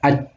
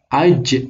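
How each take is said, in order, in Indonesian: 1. Huruf j terakhir berakhir datar tanpa memantul. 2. Huruf j terakhir diucapkan dengan memantul. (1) "nggak boleh dibaca aj, nggak boleh, harus memantul" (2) "harus dibaca aj"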